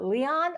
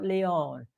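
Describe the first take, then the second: First: Leon said LEE-ahn, second syllable ah; pronunciation Leon as LEE-ahn. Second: Leon said LEE-own, second syllable oh; pronunciation Leon as LEE-own. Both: Shown as a demonstration. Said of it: "Is it Leon or is it Leon".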